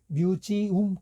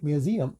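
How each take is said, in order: First: The vowel before the final m is a full 'oo'. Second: The vowel before the final m is a weak 'uh'. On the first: The speaker calls it wrong. "우리 박물관을 뮤지움 그러잖아요" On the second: The speaker calls it right. "근데 뮤지엄 이렇게 되게 됩니다"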